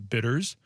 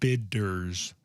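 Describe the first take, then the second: First: The middle D is soft and slurred. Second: The middle D is crisp and clearly enunciated.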